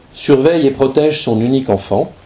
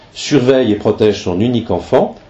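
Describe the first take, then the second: The two takes are said the same way.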